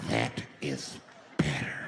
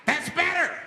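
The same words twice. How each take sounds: First: Much lower, slow creepy satisfaction; low creepy approval. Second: Creepy approval. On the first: The flasher approving the quiet bus, low creepy purr. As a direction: purr it like a pleased menace. Same line redone lower. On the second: Flasher pleased. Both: Acted.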